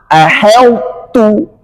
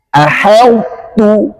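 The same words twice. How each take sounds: No difference in how they are said.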